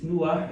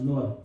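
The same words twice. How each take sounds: First: Nuah with an "oo" before the "ah"; Hebrew pronunciation. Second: Noah with an English "oh" before the "ah"; English pronunciation. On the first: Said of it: "In Hebrew". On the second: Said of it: "In English, it's pronounced as". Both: Shown as a demonstration.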